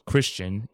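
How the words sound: The name is said with an English pronunciation. The speaker calls it wrong.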